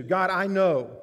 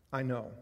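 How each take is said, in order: First: Loud, sure of himself, high; loud boasting I know; loud proud claim. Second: Said in the usual way. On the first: Shown as a demonstration. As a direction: declare it to God with pride.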